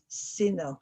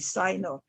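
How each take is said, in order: First: It is said the European way. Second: It is said the American way. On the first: "if you're European, you probably say Sino" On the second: "in America, they, we would say Sino"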